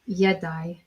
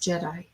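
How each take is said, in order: First: The word begins with a Y sound. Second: The word begins with a J sound. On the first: This is the older pronunciation. "you would pronounce it as Yedai" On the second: This is the later pronunciation. "But the J came in line... You would pronounce this as Jedi"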